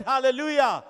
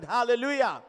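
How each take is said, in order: First: Louder, higher hallelujah, demanding an answer; insistent repeated call. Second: Loud hallelujah to the congregation; preacher's call. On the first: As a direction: press the congregation to respond. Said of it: "I said". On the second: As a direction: call out for a response. First call for congregation's response. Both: Real, not acted.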